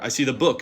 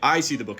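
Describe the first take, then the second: First: The stress falls on the word book. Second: The stress falls on the word I. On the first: It is a book rather than a different object. "not the pamphlet" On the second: It is me, not someone else, who sees it.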